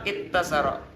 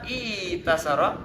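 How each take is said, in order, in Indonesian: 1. T digandakan setelah vokal pertama. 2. Vokal i panjang datang sebelum t tunggal.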